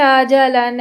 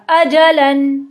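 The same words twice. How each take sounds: First: Said in the usual way. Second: अजलन with a sharp glottal stop on अ; hard Arabic hamza. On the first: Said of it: "थोड़ा सा नरमी से बोल देंगे". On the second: Shown as a demonstration. Teacher contrasting Urdu and Arabic hamza, hard stop. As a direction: hit the अ of अजलन hard from the throat. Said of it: "सख्ती से बोला जाएगा".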